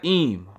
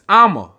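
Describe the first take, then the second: First: The word is one short syllable. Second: The word has two syllables. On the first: The speaker calls it wrong. "It's not im" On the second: The speaker calls it right. "It's Amma"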